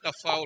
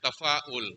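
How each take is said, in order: First: The word is said without a glottal stop. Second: The word is said with a glottal stop. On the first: The speaker calls it wrong. "Not tafaul" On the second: The speaker calls it right. "It's rather tafaul. ... with Hamza"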